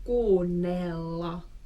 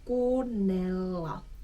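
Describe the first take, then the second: The two takes are said the same way.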